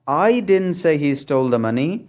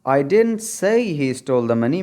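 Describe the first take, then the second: First: The stress falls on the word I. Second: The stress falls on the word say. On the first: Someone else said it, not the speaker. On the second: The speaker only hinted at it.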